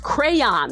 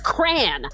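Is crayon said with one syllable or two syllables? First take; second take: two syllables; one syllable. First: The word is said with two syllables. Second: The word is said with one syllable. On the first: The speaker calls it right. "That's how I pronounce it, with two syllables" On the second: The speaker calls it wrong. "Who says crayon? I hate it"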